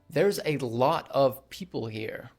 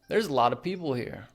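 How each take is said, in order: First: 'A lot of' is said in full. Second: 'A lot of' is reduced to 'a lotta'. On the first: "instead of saying" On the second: "a lot of becomes a lotta"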